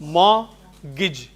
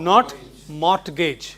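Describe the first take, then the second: First: The t in the middle is silent. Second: The t in the middle is sounded. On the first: The speaker calls it right. "This is pronounced mortgage" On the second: The speaker calls it wrong.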